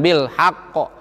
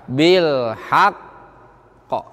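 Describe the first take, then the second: First: The final q bounces at once without holding. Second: The final q is held before it bounces. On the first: The speaker calls it wrong. "Jangan ... salah. Membuang huruf satu" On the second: The speaker calls it right. "Tahan dulu se seukuran dua harokat. ... baru mantul"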